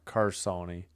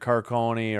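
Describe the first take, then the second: First: The middle consonant is an S sound. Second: The middle consonant is a K sound. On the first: "a hard S" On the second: "a hard C"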